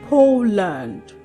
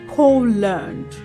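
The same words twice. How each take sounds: The two takes are said the same way.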